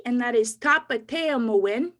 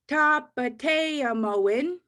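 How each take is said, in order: First: Said in the usual way. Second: Tapateamoin drawn out very slowly; slow Cree word. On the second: Shown as a demonstration. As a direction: stretch Tapateamoin so they can follow. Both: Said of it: "I'll say them slow".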